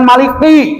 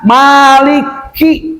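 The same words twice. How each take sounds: First: The k is cut off without a puff of breath. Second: The k is released with a clear puff of breath. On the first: The speaker calls it wrong. "jangan maliki, maliki, salah" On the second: The speaker calls it right. "Jelas anginnya tuh"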